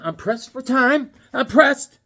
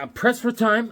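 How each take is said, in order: First: Higher, slower, louder each time; rising urgency. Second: Said in the usual way. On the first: Real, not acted. Hurried host stressing he's short on time, more urgent. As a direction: press the point home, more urgent. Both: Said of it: "repeats line, building".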